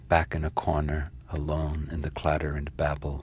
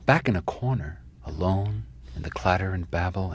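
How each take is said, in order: First: It is read with moderate, restrained expression. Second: It is read with heavy, dramatic expression. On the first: Both the sound and the meaning of the line come through. The speaker calls it right. "Somewhere in between the two is the poem" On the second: The reader's interpretation is imposed on the line. The speaker calls it wrong. "some other histrionic interpretation"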